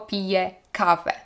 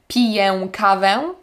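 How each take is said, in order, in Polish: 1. Końcowa samogłoska jest wymawiana lekko, jak zwykłe e. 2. Końcowa samogłoska jest wymawiana mocno i za bardzo akcentowana. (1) "tylko ... Tak jak e" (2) "Nie mówimy"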